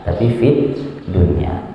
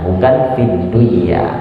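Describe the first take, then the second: First: The n is pronounced clearly before the y. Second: The n is merged nasally into the following y. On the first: The speaker calls it right. "tetap normal" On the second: The speaker calls it wrong.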